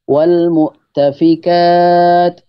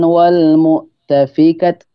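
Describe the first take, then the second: First: The final vowel is drawn out long. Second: The final vowel is short. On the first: The speaker calls it right. "itu dipanjangkan" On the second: The speaker calls it wrong.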